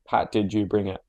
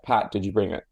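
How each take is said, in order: First: Pat runs straight into the question, no pause. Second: A slight pause and emphasis follow Pat.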